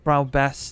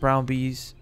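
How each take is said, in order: First: The second word has a short 'e' vowel. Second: The second word has a long 'ee' vowel. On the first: The speaker calls it right. "No, not bees" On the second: The speaker calls it wrong. "I don't know why I thought it was pronounced bees"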